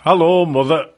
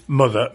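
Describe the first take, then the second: First: A light northern greeting, "mother" said as the northern "mother"; northern accent. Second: Said in the usual way. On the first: Retold or imitated. Radio presenter mimicking a husband greeting his wife, light northern accent. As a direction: greet her cheerily in a hinted northern accent, a little louder. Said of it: "except not in that accent, of course, 'cause that's more northern". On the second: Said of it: "meaning the wife".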